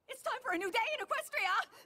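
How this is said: It is said with too much excitement.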